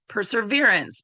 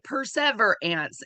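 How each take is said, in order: First: The word has its usual spoken pronunciation. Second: Each part is pronounced as it is spelled. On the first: This is how the word is normally said. The speaker calls it right. "and then I try to say it" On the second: This version helps with spelling the word. The speaker calls it wrong. "I have to say it in my head as perseverance, but that is not how you pronounce it"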